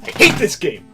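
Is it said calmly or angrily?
angrily. It is said angrily, with exaggerated frustration.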